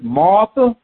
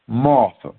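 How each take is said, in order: First: Said in the usual way. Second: Second "Martha" dropped low and soft. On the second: Shown as a demonstration. Jesus gently calls Martha back, low and soft. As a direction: say "Martha" again, lower and quieter, like a gentle rebuke. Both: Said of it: "something repeated, that is putting emphasis on it".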